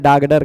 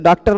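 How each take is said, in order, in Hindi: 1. बीच के व्यंजन सघोष 'g' और 'd' हैं। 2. बीच के व्यंजन अघोष 'k' और 't' हैं। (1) "डागडर कह दी" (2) "डॉक्टर नहीं बोल पा रही थी"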